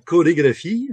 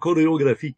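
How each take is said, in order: First: It is said with a standard French pronunciation. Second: It is said with an English-sounding pronunciation. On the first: The speaker calls it right. "Au lieu de dire une chorégraphie en français" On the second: The speaker calls it wrong. "il le disait en français comme chorégraphie"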